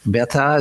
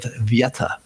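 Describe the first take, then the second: First: The word begins with a b sound. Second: The word begins with a v sound. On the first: This is the modern Bengali form. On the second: This is the original Sanskrit form.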